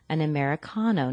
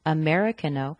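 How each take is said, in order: First: Americano quickly, stressed on CA as "con". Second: Americano stressed on MER, unstressed CA; wrong stress on MER. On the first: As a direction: put the beat on the CA in Americano, said "con". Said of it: "with the stress on the con". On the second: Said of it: "not Americano". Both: Shown as a demonstration.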